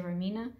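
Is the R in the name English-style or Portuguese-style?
English-style. The name starts with an English-style R sound. "since I'm speaking in English, I think I'm going to say Remina"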